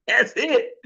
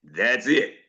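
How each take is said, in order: First: "That's it." laughed out, higher and lighter; amused echo of the catchphrase; laughing repeat. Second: Lower, weighty sign-off "That's it."; deep mock preacher close: "That's it."; imitating Doctor Mark. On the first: Real, not acted. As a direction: chuckle through "That's it". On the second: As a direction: drop the voice low and land "That's it" like a final word. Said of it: "it's always like this".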